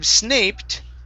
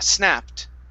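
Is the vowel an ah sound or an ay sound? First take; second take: ay; ah. First: The vowel is an ay sound. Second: The vowel is an ah sound. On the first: The speaker calls it wrong. "Instead of snaped" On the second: The speaker calls it right. "this is going to be an ah sound"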